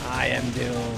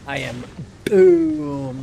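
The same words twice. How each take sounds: First: Doom is said plainly with a soft D. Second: Doom is said with a hard, forceful D. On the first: The speaker calls it right. "You just said Doom" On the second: The speaker calls it wrong. "he went like I am, like hard D"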